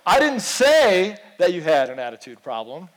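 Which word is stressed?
say. The stress is on the word say.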